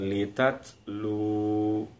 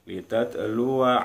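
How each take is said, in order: First: The word ends with a slightly lengthened lu. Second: The word ends with a short wa syllable. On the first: The reading stops at this word. "lu-nya agak dipanjangkan" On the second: The reading continues into the next word. "bunyi wa masuk ke bunyi ain, litatluwa alaihim langsung"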